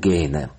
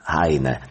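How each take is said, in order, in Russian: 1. Первый гласный звучит как 'ay'. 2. Первый гласный звучит как 'eye'. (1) "мы в русской студии, да, поэтому" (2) "я предпочитаю произносить его имя и фамилию так, как произносят немцы"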